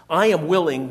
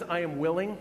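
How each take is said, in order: First: "am" punched much louder, falling; emphatic "I AM willing", loud and falling; stress on am. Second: Said in the usual way. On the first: Shown as a demonstration. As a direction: lean hard on "am" in "I am willing". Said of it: "reminds us that Jesus". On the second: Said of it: "The fact that he says".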